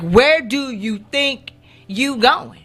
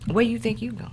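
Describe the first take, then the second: First: It is said sharply and aggressively. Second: It is said smoothly and calmly.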